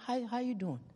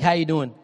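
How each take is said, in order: First: It is asked slowly and with real interest. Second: It is asked quickly and casually.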